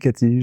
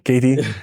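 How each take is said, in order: First: The name is said with a French accent. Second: The name is said with an American accent. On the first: The speaker calls it wrong. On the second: The speaker calls it right.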